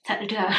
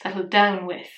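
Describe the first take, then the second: First: "Settle down" with the weight on "down"; stress on down. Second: "Settle down with" with a falling push on "down"; stress on down. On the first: Correcting herself to stress "down" in "Settle down". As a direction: lean on "down", not "Settle". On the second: Correcting her joke so "down" carries the stress. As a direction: land hard on "down" in "Settle down with". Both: Shown as a demonstration. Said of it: "Not settle".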